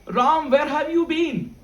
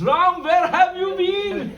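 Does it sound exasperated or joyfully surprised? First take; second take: exasperated; joyfully surprised. First: It sounds exasperated after a long search. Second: It sounds like a joyful, surprised exclamation.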